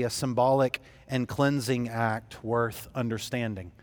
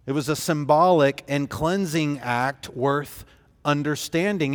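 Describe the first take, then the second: First: Said in the usual way. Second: "symbolic" leaned on, fuller voice; emphatic repeat. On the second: Shown as a demonstration. Preacher repeats the point to the congregation with emphasis. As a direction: restate it firmly, stressing "symbolic".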